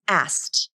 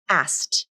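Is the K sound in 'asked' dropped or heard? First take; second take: dropped; dropped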